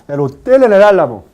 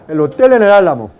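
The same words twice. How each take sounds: No difference in how they are said.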